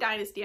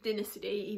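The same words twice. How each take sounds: First: The word is said the American way. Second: The word is said the British way. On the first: "I think that's the American way of saying it" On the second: "Dynasty even"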